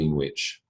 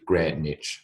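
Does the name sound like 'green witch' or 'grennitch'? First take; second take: green witch; grennitch. First: It sounds like the two words green witch. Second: It sounds like one word, grennitch, without w. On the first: The speaker calls it wrong. "it is not a green wicked woman on a broomstick" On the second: The speaker calls it right. "It is Greenwich"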